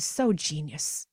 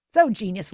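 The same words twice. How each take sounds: First: So genius drawn out slow and soft, savoring it. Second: So genius punched out louder and brighter; emphatic praise. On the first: Praising her friend's wise words, slow and soft. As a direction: let so genius melt out slowly. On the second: Repeating praise for her friend, louder and emphatic. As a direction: snap so genius out with conviction. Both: Real, not acted.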